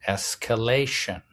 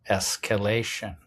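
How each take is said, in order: Both takes have the same delivery.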